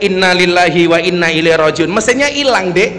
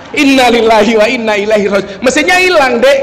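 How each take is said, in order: First: Mild mock yell of dismay; retold cry of alarm. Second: Imitated shout of alarm. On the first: Madurese friend finds the car engine missing, mild mock yell. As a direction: act out a startled cry, only slightly raised. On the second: Madurese friend shouts that the engine is gone, mock alarmed yell. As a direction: cry out in mock dismay, pitch climbing at the end. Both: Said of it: "Langsung dia teriak".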